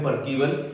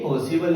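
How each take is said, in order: First: The middle consonant is a k sound. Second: The middle consonant is an s sound. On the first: This is how some overly educated teachers say it. "कुछ teachers जो ज्यादा पढ़े लिखे हैं ना, मतलब वो बोलते हैं परकीवल" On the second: This is the usual way to say the proper noun. "लेकिन ये पर्सिवल है क्योंकि प्रॉपर नाउन है"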